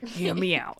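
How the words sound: It is said in a New York accent. The speaker calls it right.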